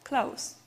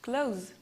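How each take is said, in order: First: The word ends with a hissing s sound. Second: The word ends with a buzzing z sound. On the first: It is the adjective or adverb meaning near. "we should pronounce S sound in this word" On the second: It is the verb meaning to shut. "In the verb, we should pronounce Z sound"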